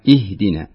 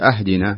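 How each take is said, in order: First: The word begins with an i vowel. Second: The word begins with a vowel other than i. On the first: The speaker calls it right. "اكسري الهمزة" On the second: The speaker calls it wrong. "لا مش أهدنا"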